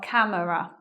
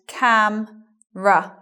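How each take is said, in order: First: It is said with three syllables. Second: It is said with two syllables. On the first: The speaker calls it wrong. "not camera" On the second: The speaker calls it right. "So it becomes cam-ra"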